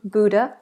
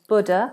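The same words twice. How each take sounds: First: The first syllable has an 'oo' vowel. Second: The first syllable has a different vowel. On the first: The speaker calls it right. "it's pronounced B O O kind of sound, boo" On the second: The speaker calls it wrong. "rather than"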